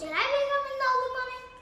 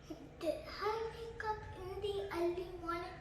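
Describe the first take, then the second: First: It is said fast. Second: It is said slowly.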